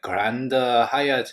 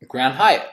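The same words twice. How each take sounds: First: It is said with a Korean-style accent. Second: It is said with an American English accent. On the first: "We have to like pronounce it the Korean way" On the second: "I'm just like"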